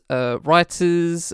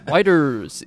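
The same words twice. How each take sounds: First: It is said in the speaker's natural voice. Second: It is said in an imitated, put-on voice.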